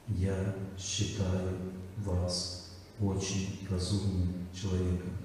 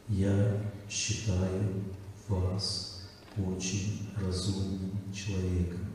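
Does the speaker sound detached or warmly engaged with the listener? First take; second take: detached; detached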